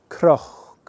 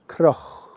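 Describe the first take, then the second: First: The word starts with a k-r sound. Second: The word starts with a k-r sound.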